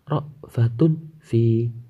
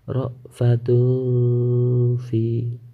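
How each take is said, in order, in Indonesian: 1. Bunyi n sebelum f dibaca dengan jelas. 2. Bunyi n sebelum f dibaca samar dan berdengung. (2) "tanwin dibaca samar"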